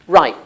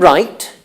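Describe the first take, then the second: First: The word ends with a glottal stop. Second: The word ends with a clear t.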